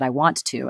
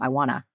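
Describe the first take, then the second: First: It is said carefully, each word pronounced fully. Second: It is said casually, reduced to wanna.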